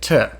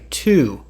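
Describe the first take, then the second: First: The word is reduced to a t sound. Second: The word has a full vowel. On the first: The speaker calls it right. "we say t" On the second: The speaker calls it wrong. "we don't actually say to"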